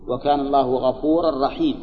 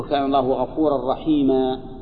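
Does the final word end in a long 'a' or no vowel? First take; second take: no vowel; long a. First: The last word ends without a vowel. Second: The last word ends with a long 'a'. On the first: The speaker calls it wrong. "خطا ايضا، لازم يقول رحيما" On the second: The speaker calls it right. "المنصوب المنون يوقف عليه بالألف"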